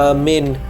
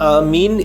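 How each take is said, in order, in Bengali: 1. দ্বিতীয় স্বরধ্বনিটির উচ্চারণ 'bed'-এর 'e'-এর মতো। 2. দ্বিতীয় স্বরধ্বনিটির উচ্চারণ 'see'-এর 'ee'-এর মতো। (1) "আকার ময় একার দন্তের ন" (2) "আকার ম হস্যই দন্তের ন ... এটা সঠিক নয়"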